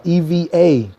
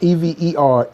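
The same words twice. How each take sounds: First: Letter by letter: E V A, the right one; spelled E V A. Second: Letter by letter: E V E R, the wrong one; spelled E V E R. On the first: Host correcting the viewers' spelling: E V A. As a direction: spell it E V A, the slang way of saying ever. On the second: Host correcting the viewers' spelling: E V E R. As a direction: spell out E V E R, the standard spelling being rejected. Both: Shown as a demonstration. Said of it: "Not E V E R".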